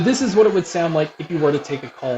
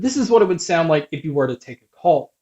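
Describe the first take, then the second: First: The voice is heard over loud crowd noise. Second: The voice is heard over a quiet background. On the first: "here is a mic test with a crowd noise being played" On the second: "here is a mic test"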